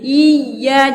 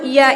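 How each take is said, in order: First: The y sound is doubled and held. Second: The y sound is single and short. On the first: The speaker calls it right. "iya-nya itu bertasydid" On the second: The speaker calls it wrong. "jangan dulu iya, seolah-olah tidak ada tasydid"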